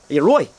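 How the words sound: It is said in a Dublin accent.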